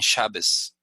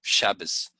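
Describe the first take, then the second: First: The word ends with an 's' sound. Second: The same.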